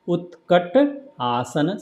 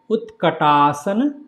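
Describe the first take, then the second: First: The word is split in two by a pause. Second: The word is said as one unbroken unit.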